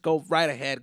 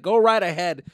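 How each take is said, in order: First: Said in the usual way. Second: Second Go right ahead punched louder and higher; louder repeat. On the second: Real, not acted. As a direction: say it again, bigger and bolder.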